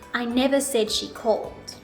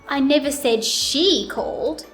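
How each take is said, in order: First: No word stands out; the delivery is flat. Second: The word "she" is louder, longer and higher. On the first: "I'll first say it with no intonation" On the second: "Now let's put it on she"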